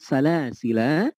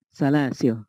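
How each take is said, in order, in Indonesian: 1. Kata itu diakhiri dengan bunyi vokal. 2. Kata itu diakhiri dengan bunyi konsonan. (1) "Ataukah dia diisbat atau ditetapkan?" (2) "Apakah dia dihadaf atau dihilangkan?"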